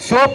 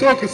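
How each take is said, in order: First: The word ends with a short p sound. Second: The word ends with a doubled k and u. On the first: The speaker calls it wrong. "சோப் இல்ல" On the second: The speaker calls it right.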